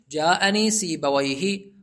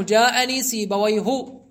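First: Slow, careful سيبويه with final "hi"; kasra ending. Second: Slow سيبويه with a short final "u"; damma without tanwin. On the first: Teacher showing the word built on kasra, kasra ending. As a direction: end سيبويه on a short "i", sibawayhi. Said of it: "فتبنيه على الكسر". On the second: Teacher showing the diptote subject, damma without tanwin. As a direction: end سيبويه on "hu", sibawayhu, no final n. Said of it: "بالضم بدون تنوين". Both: Shown as a demonstration.

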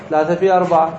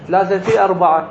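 First: Said in the usual way. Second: في pushed a little higher and quicker; stressed multiplication. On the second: Shown as a demonstration. Teacher working out twelve weights aloud for students. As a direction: spell out the three times four.

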